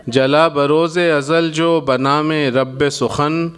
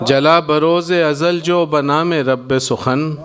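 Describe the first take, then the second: No difference in how they are said.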